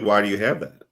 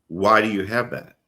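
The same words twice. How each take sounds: First: The question sounds relaxed and easygoing. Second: The question sounds sharp and accusing.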